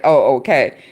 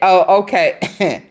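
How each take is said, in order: First: It is said plainly, without any attitude. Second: It is said with a sassy, attitude-filled twist.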